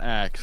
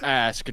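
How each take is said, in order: First: The k sound comes before the s. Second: The s sound comes before the k. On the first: The speaker calls it wrong. "It's not Axe" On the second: The speaker calls it right. "It's Ask"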